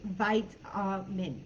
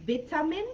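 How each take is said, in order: First: "vitamin" with a long i, as in "bite"; "vitamin" broken up slowly, starting VITE; American pronunciation. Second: "vitamin" with a short i, as in "bit"; "vitamin" opening with a short VIT syllable; British pronunciation. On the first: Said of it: "In the U S, it's". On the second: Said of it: "In the U K ... they would pronounce". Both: Shown as a demonstration.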